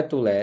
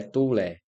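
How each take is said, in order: First: Tulé said as tu-LÉ, weight on the end; stress on last syllable. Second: Tulé said as TÚ-le, weight on TU; stress on first syllable. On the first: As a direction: hit the final LÉ in tulé. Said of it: "Não é tulé". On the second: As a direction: stress the TU in tulé and drop the end. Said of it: "a forte é tu". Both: Shown as a demonstration.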